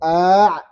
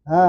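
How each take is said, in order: First: The vowel starts with a full glottal stop. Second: The vowel is eased, with a breathy onset. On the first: The speaker calls it wrong. "bukan a" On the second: The speaker calls it right. "tapi ha, ha, gitu"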